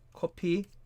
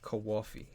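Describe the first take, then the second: First: It is said with a Korean accent. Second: It is said with an East Coast accent. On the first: "Or for the Koreans" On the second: "on East Coast they like to say Kawafi"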